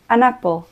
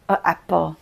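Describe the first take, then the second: First: An n sound links the article smoothly into the noun. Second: Two vowels collide, with an awkward break between them. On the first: The speaker calls it right. "krásně to plyne" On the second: The speaker calls it wrong. "To mě tady stojí strašnou námahu"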